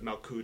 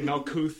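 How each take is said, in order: First: The word ends with a t sound. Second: The word ends with a th sound. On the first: The speaker calls it right. "instead of Malkut" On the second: The speaker calls it wrong. "they'll mispronounce all the Hebrew. So they'll say Malkuth"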